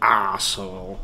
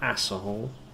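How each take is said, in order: First: The first vowel is said in a British way. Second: The first vowel is said in an American way. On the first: The speaker calls it right. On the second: The speaker calls it wrong.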